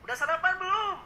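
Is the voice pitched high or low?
high. It is spoken at a high pitch. The speaker calls it wrong. "Bukan dengan nada high tone"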